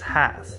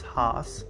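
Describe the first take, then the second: First: The vowel rhymes with the vowel in 'pass'. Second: The vowel does not rhyme with 'pass'. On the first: The speaker calls it right. "the name rhymes with pass" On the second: The speaker calls it wrong. "but that is incorrect"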